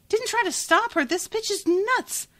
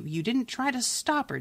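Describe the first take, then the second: First: Incredulous repeat. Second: Said in the usual way. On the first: Real, not acted. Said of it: "I'm so mad". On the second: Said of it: "And Crestomancy says".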